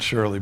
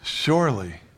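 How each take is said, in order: First: The word is said lightly, without emphasis. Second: The word is said with strong, forceful emphasis. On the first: It is only a vague possibility. The speaker calls it wrong. "not surely" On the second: It is certain, with no doubt. The speaker calls it right. "emphatically, absolutely, no doubt about it"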